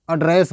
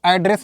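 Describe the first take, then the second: First: "एड्रेस" opening on a short uh; verb pronunciation. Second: "एड्रेस" opening on a clear open a; noun pronunciation. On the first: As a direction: model "एड्रेस" as uh-DRESS. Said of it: "ये चीज़ बोलना है". ("एड्रेस" को "अड्रेस" कहकर दिखाएँ) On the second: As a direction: show "एड्रेस" as AD-ress, the form to avoid. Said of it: "आपको एड्रेस नहीं बोलना है". ("एड्रेस" को "ऐड्रेस" कहकर दिखाएँ) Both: Shown as a demonstration.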